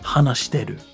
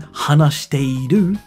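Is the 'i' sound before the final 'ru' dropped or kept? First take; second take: dropped; kept. First: The 'i' before the final 'ru' is dropped. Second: The 'i' before the final 'ru' is pronounced. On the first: "You could just say, hanashiteru. This is a very casual, colloquial way of speaking" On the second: "instead of saying hanashiteiru"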